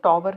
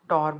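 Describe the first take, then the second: First: The word is said with a w sound. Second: The word is said without a w sound. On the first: The speaker calls it wrong. "टॉवर नहीं कहते, डब्ल्यू silent होता है इसमें" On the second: The speaker calls it right. "टॉवर बोलते हैं इसको"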